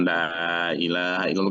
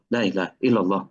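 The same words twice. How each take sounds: First: It is said slowly. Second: It is said quickly.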